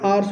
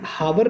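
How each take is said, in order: First: The word begins with a vowel, h silent. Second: The word begins with a pronounced h sound. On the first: The speaker calls it right. "आर्स बोलते हैं" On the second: The speaker calls it wrong. "हावर नहीं बोलते"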